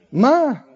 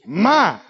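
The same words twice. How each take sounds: First: My lifted and pressed; stress on my. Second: My said alone, hit hard; stress on my. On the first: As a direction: hammer the word my. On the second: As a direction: lean on the word my. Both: Shown as a demonstration. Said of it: "Notice where the emphasis is".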